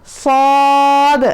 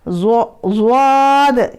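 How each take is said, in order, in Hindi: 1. कोई w glide नहीं; अंत में भारी आवाज़ गूंजती है। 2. पहले व्यंजन के बाद w ग्लाइड आती है। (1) "सही वाला कौन सा है" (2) "अभी मैं गलत पढ़ के दिखाती हूँ"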